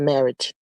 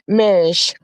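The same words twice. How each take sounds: First: The word ends with the usual "-age" sound. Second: The word ends with an "-ish" sound. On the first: "Not marriage" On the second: "I S H"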